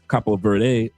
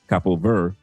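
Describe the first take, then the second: First: The final 'de' of Verde is pronounced. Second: The final 'de' of Verde is silent.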